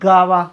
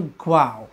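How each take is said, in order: First: The word begins with a plain gah sound. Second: The word begins with a gliding gwah sound. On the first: The speaker calls it wrong. "बरेच मुलाला कदाचित गावा किंवा गुवा असे उच्चार करतात" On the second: The speaker calls it right. "पण हा शब्द आहे ग्वाव"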